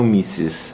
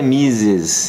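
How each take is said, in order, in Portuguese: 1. A consoante do meio é um s sibilante. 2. A consoante do meio é um z sonoro, vibrante. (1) "e não Mises" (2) "então é Mises"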